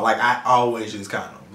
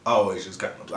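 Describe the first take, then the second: First: Said in the usual way. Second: "always" set apart after a pause, said low and firm; stress on "always". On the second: Real, not acted. Telling viewers he means it, "always" said low and firm. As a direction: lean firmly on "always" in a lower, softer voice. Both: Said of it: "When I say always".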